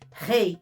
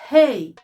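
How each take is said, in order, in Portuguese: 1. O r é feito raspado na garganta. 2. O r sai livre, sem usar a garganta. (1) "Não pode falar assim. Assim é a Ret" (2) "A rei, a gente não usa a garganta"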